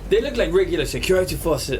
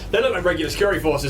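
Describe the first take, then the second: First: It is said in a put-on character voice. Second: It is said in the speaker's natural voice.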